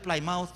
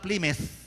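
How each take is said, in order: First: Pronounced the way Filipinos read it. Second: Pronounced the way local residents say it. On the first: This is how we read it. "Ang pagbasa ta diabi Plymouth" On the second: This is how the locals say it. "sa ila Plymouth"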